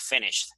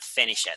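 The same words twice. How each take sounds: First: The ending is a brief t sound. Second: The ending is a full extra syllable. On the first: The speaker calls it right. "You almost don't pronounce it. It's just like finished" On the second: The speaker calls it wrong. "not finished"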